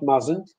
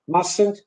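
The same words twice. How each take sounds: First: The middle consonant is a buzzing z. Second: The middle consonant is a hissing s. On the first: The speaker calls it wrong. "not mustn't" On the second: The speaker calls it right. "we should use S instead of Z"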